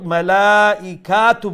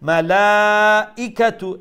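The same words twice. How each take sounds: First: The vowel after 'k' is drawn out long. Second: The vowel after 'k' is kept short. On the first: The speaker calls it wrong. "কা লম্বা হবে ... মালাইকাতু বলবেন না" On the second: The speaker calls it right. "মালাইকাতু এইরকম"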